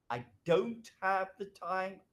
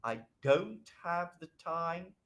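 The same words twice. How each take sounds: First: Slow "I don't have the time", held higher; intonation up. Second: Slow "I don't have the time", less raised; measured polite refusal, easing down towards "time"; intonation down. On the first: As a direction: demonstrate "don't have the time" with raised pitch. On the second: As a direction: demonstrate "don't have the time" in a more settled pitch. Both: Shown as a demonstration.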